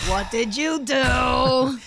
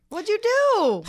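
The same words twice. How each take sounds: First: Loud, very slow, stretched-out question; drawn-out mock scolding. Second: Loud, high-pitched drawn-out question; mock scolding. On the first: Co-host pressing friend about Twitter trouble, drawn-out mock scolding. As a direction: stretch every word into a playful accusation. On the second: Co-host reacting to friend's Twitter trouble, mock scolding. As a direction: pitch it way up, playfully accusing.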